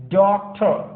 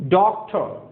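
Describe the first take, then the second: The two takes are said the same way.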